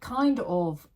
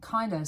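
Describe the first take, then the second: First: Both words are said in full. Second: The words are reduced to one word.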